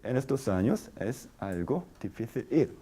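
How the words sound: Short pauses separate the words. This is the formal way to say it. "porque hay pausa"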